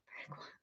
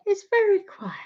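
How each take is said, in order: First: Whispered "Very quiet" to act out the hush. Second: Said in the usual way. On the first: Shown as a demonstration. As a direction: drop to a playful whisper. Says YouTube is very quiet.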